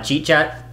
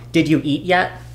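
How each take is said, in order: First: It is squeezed into two short syllables. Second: Every word is said out in full.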